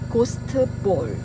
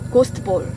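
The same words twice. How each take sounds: First: It is said slowly, syllable by syllable. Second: It is said quickly, syllables run together. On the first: "Sebenarnya kalau dieja itu" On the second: "Tapi kalau misalnya cepat"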